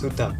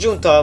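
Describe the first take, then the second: First: The word begins with an H sound. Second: The word begins with a J sound. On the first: The speaker calls it right. "it's pronounced Huta" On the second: The speaker calls it wrong. "not Junta, like I originally pronounced it"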